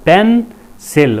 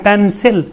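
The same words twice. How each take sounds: First: pencil slowly split as पेन, सिल; syllable by syllable. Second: Said in the usual way. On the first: Shown as a demonstration. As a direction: say pencil in two separate beats with a gap between. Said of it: "हरकतें दो हैं". (Pencil को दो हिस्सों में धीरे से: पेन, सिल) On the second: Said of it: "लफ्ज़ बोलते हैं".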